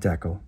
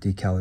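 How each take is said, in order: First: It is said with a non-American pronunciation. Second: It is said with an American pronunciation.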